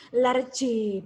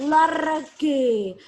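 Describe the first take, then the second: First: Large in one beat, lardj; correct pronunciation. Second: Large as lar-ge, two loud beats; wrong pronunciation. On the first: Teacher models the right way, one beat. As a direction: Large said as a single syllable. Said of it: "Sekali ucap". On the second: Teacher exaggerates the error, loud. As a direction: large with an added e sound at the end. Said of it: "Sekali ucap, bukan". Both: Shown as a demonstration.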